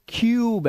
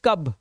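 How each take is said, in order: First: The vowel is a long 'yoo' sound. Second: The vowel is a short 'uh' sound. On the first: The speaker calls it right. "ये क्यूब है, ये यू की ही आवाज" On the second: The speaker calls it wrong. "अब मत कर देना इसे कब"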